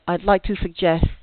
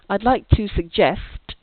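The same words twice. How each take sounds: First: The final consonants of suggest are left off. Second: The final consonants of suggest are clearly pronounced. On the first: The speaker calls it wrong. "without the sound ending produced" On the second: The speaker calls it right. "instead of saying"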